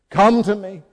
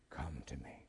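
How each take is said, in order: First: Higher and much louder, a full cry; ringing call. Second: Soft, much lower, breathless whisper; whispered invitation. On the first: Jesus summoning the congregation, crying out loudly. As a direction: call out with all your strength. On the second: Jesus calling the listener close, in a hushed whisper. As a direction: whisper it like a secret call. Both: Acted.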